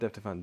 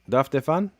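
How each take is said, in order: First: The first word has an 'eh' vowel. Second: The first word has an 'ah' vowel. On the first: The speaker calls it wrong. "Not def Defan" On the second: The speaker calls it right. "That's what I thought"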